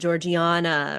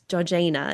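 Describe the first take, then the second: First: The name is said the way Americans would expect. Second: The name is said in a non-American way. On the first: This is how one would guess the name is said. The speaker calls it wrong. "you think that name is going to be said Georgiana" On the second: This is how the name is actually said. The speaker calls it right. "and it's Georgiana. It's even hard harder to say"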